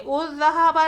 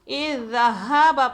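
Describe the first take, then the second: First: The word begins with a u vowel. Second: The word begins with an i vowel. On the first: The speaker calls it wrong. "उज़्ज़हाबा नहीं" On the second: The speaker calls it right. "हम इसे कसरा देंगे"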